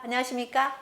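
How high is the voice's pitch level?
high. It is said at a fairly high pitch level. "파"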